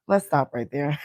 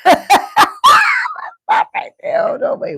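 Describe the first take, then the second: First: Said in the usual way. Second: Very high breathless laughing squeal. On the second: Real, not acted. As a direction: squeak the words out mid-laugh.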